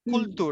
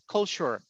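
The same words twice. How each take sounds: First: The ending sounds like 'tour'. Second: The ending sounds like 'sure'. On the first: The speaker calls it wrong. "The word is not culture" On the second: The speaker calls it right. "it's culture"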